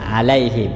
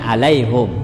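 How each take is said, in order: First: The vowel after the h is i. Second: The vowel after the h is u. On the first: This follows the usual reading of the others. "kalau imam yang lain seperti biasa alaihim" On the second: This follows the reading of a particular tradition. "membaca harkat doma pada huruf H, sehingga dibacanya alaihum"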